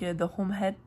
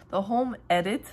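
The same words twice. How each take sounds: First: "The Home Head" with an added H sound before "Edit", as in "Head"; "Head" with a breathy h, French speaker's stray H; French-accent slip. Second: "The Home Edit" with "Edit" starting on a clean vowel, no h; careful self-corrected "The Home Edit"; corrected title. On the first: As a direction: say "The Home Head" with an aspirated h where none belongs. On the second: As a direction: fix it: "The Home Edit", the H only on "Home". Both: Real, not acted. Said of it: "je rajoute des H".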